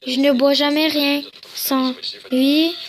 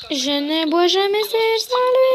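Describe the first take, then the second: First: Said in the usual way. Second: High, stretched, silly singsong; rising singsong. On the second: Acted. Redoing the line about the favourite cup, rising singsong. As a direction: climb steadily higher to a held squeal.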